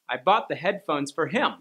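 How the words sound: The stress falls on the word him. The gift went to him, not to someone else. "I didn't buy them for her, I bought them for him"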